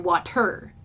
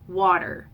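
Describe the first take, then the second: First: The stress is on the second syllable. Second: The stress is on the first syllable. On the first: The speaker calls it wrong. "We don't say water, right?" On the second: The speaker calls it right. "They've got that accent on the first syllable"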